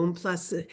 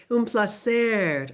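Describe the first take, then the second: First: Said in the usual way. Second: "Un placer" slower with every sound clear; teacher modelling "Un placer" for learners; slow careful repeat. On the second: Shown as a demonstration. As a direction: repeat "Un placer" slowly and distinctly.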